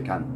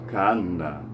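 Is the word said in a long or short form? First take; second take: short; long. First: The word is short and ends in a consonant. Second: The word is longer and ends in a vowel. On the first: This is the everyday dialect form. "in dialect, we just say kan. It's really short" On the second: This is the formal classical form. "when we pronounce it in formal Arabic"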